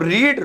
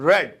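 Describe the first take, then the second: First: The vowel is long, like 'reed'. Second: The vowel is short, like 'red'. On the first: It is the present form. "वही रीड" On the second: It is the past form. "लेकिन बोलने में रेड"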